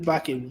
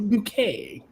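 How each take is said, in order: First: The name is said like the word bucket. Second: The name is said like the word boo-kay. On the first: This is how the name is really said. "her name is Bucket" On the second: The owner insists on a fancier form. "She goes, no, it's a bouquet"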